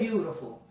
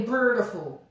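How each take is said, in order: First: The word has no added R sound. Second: The word has an added R sound. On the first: It is how New Orleans people say it. The speaker calls it right. "but we say beautiful" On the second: It sounds like speech from up north. The speaker calls it wrong. "we do not say Beautiful. ... putting that R in there"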